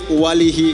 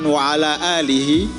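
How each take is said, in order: First: It is said fast, with syllables run together. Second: Every syllable is said clearly and fully. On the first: The speaker calls it wrong. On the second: The speaker calls it right.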